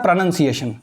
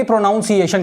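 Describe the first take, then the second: First: प्रोनाउंसिएशन said as "pruh-nun-see-ay-shun"; a short "nun", not "noun", in प्रोनाउंसिएशन; correct pronunciation. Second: प्रोनाउंसिएशन with "pro-noun" as its first two syllables; mispronounced word. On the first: Teacher shows students how to say प्रोनाउंसिएशन, as "pruh-nun-see-ay-shun". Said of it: "इसको कैसे बोलते हैं". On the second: Teacher shows students a mistake, प्रोनाउंसिएशन mispronounced as "pro-noun-ciation". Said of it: "जो कि गलत है". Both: Shown as a demonstration.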